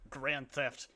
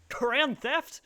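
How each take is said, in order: First: Said in the usual way. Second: High, loud scornful scoff at "Grand theft?"; mocking scoff. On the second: Mocking the clip's tough guys, a loud high scoffing "Grand theft?". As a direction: sneer "Grand theft?" up high like it's nothing. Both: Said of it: "they see that it's like".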